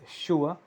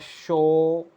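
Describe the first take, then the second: First: The vowel glides from 'oo' toward 'uh'. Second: The vowel is one steady sound, like 'show'. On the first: "the variant is sure and we are going to use it here" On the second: "this one is pronounced as show also"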